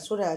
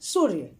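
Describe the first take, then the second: First: The word ends with a long 'aa' vowel. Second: The word ends without a final vowel. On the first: The speaker calls it wrong. "जो सुनने में अच्छा नहीं लगेगा" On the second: The speaker calls it right. "तब ये हो जा रहा है सूर्य"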